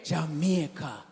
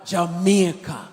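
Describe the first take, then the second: First: It is said at normal, quieter volume. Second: It is said louder.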